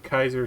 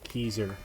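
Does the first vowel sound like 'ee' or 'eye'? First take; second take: eye; ee. First: The first vowel sounds like 'eye'. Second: The first vowel sounds like 'ee'. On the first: The speaker calls it right. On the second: The speaker calls it wrong.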